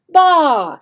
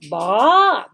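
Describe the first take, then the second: First: The pitch falls from high to low. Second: The pitch rises from low to high. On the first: "a falling sound, okay, falling tone" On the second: "They have a rising sound"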